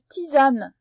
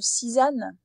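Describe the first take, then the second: First: The 'ti' is said with a T sound. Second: The 'ti' is said with an S sound. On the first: The speaker calls it right. "le T avec le I fait quand même T" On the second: The speaker calls it wrong. "et pas"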